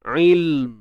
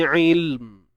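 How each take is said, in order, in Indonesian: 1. L ditahan senyap terus ke M. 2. L ditahan senyap terus ke M.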